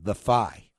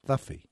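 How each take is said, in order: First: It is said as two words, 'the fie'. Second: It is said as one word, 'thuffy'. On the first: This is how the written username reads. "His username there is The Phi" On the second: This is how the username's owner says it. "although he pronounces it Thuffy"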